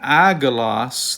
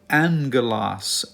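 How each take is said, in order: First: The first gamma is sounded as a plain G. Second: The first gamma is sounded as NG. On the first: The speaker calls it wrong. "this is not agalos" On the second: The speaker calls it right. "The first gamma, this one, will be pronounced with an N sound"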